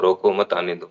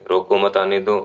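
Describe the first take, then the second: First: "रोको", short break, "मत आने दो"; pause after रोको. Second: "रोको मत" grouped, then "आने दो"; pause after मत. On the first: Teacher contrasting two readings, break after रोको. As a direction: separate रोको and run मत आने दो together. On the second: Teacher contrasting two readings, break after मत. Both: Shown as a demonstration. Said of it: "कोमा को इधर से उठा के इधर लगा दिया".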